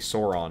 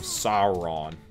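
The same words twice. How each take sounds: First: The first syllable does not sound like 'sour'. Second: The first syllable sounds like the word 'sour'. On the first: The speaker calls it wrong. "why I say Sauron" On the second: The speaker calls it right. "you gotta get the sour in the sour"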